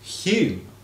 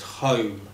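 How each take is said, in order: First: The vowel is a 'yoo' sound, like Hume. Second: The vowel is an 'oh' sound, like home. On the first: This is how it is said in Scotland. "that is pronounced in Scotland" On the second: This is how it is said in Newcastle. "In Newcastle, ... it's pronounced home"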